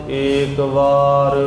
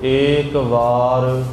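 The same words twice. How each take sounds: Both takes have the same delivery.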